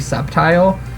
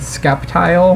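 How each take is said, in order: First: The word starts with a plain 's' sound. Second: The word starts with an 'sk' sound. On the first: The speaker calls it right. "knowing how like S and C work together" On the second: The speaker calls it wrong. "I always said Skeptile"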